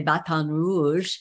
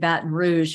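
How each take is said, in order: First: The name is said with a French-style pronunciation. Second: The name is said with an American pronunciation. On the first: The speaker calls it right. "but you say Baton Rouge" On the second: The speaker calls it wrong. "very American"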